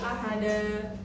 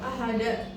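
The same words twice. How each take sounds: First: The word ends with a long a vowel. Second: The word ends with a glottal stop. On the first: The speaker calls it right. "seharusnya dibaca ahada" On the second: The speaker calls it wrong. "seperti ada hamzah di akhir"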